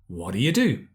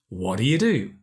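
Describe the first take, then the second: First: The words are reduced and run together. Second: The same.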